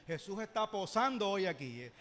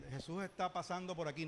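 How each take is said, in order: First: "posando" said clearly, stressed as the new word; changed lyric. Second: Said in the usual way. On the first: Shown as a demonstration. Pastor giving the church the corrected lyric: stress on "posando". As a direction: land on "posando" and "hoy". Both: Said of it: "nosotros le cambiamos en Betania".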